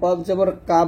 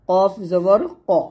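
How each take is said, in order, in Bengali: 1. স্বরটি সাধারণ খোলা 'a'-এর মতো শোনায়। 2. স্বরটি মোটা এবং একটু গোলাকার শোনায়। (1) "এই ভুলগুলা করা যাবে না" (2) "এই সাতটা অক্ষর মোটা করে পড়তে হবে"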